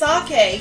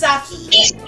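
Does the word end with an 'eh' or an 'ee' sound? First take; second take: eh; ee. First: The word ends with an 'eh' vowel. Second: The word ends with an 'ee' vowel. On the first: The speaker calls it right. "it's pronounced sake" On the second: The speaker calls it wrong. "my dad pronounces sake as saki"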